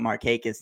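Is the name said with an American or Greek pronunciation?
American. The name is said with an American pronunciation. This is the everyday local pronunciation. The speaker calls it wrong. "we always called him Markakis"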